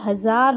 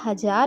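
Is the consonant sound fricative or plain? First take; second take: fricative; plain. First: The consonant is said with audible friction. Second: The consonant is said plainly, without friction.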